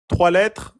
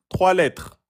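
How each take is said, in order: Both takes have the same delivery.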